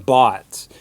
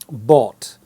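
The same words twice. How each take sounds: First: The vowel is an open unrounded 'ah' sound. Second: The vowel is a long rounded 'oh' sound. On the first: "the American bought, which has more of an ah sound" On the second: "the British tend to say bought. The sound is a long O"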